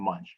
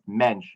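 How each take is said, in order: First: The name is said to sound like 'Munch'. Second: The name is said to sound like 'Mensch'. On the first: The speaker calls it wrong. "not Munch" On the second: The speaker calls it right. "my name is pronounced Mensch"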